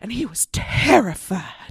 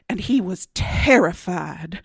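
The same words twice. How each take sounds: First: It is said in a breathy, excited Southern belle voice. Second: It is said in a plain, ordinary voice.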